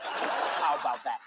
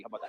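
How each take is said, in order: First: Slow menacing repeat. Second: Said in the usual way. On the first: Acted. Dad repeats, slow take.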